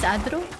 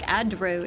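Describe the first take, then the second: First: The R is said with a roll. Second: The R is said without a roll. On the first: It makes the word flow better. The speaker calls it right. "oh yes" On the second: It sounds clunky. The speaker calls it wrong. "kind of clunky"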